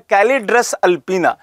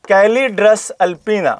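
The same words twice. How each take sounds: First: The Latin name said a little slowly; careful naming. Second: Calidrus alpina stretched out very slowly, syllable by syllable; spelled-out slow repeat. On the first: Teacher giving students the bird's scientific name, carefully. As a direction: introduce Calidrus alpina clearly. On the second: Teacher repeating the name for exam students to note, very slowly. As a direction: drill Calidrus alpina so they can write it down. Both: Shown as a demonstration. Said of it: "क्या नाम है?".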